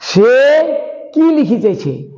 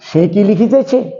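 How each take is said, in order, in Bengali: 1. প্রশ্নবোধক শব্দেই মূল জোর পড়ে। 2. প্রশ্নবোধক শব্দে জোর পড়ে না; ক্রিয়াপদে জোর পড়ে। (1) "এখানে আমি অন্যভাবে বলছি" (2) "উত্তরটি হ্যাঁ কিংবা নাতে দেওয়া যাচ্ছে"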